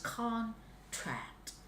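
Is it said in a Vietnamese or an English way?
English. It is said the English way, first syllable stressed.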